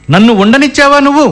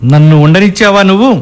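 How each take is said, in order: First: Higher-pitched, indignant repeat; heated accusation. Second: Reproachful question rising at the end; accusing question. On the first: Husband repeats his charge at wife, heated. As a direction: throw the question at her, pitched up. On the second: Husband answers wife who blamed him, accusing. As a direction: accuse her, pitch near usual. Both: Acted.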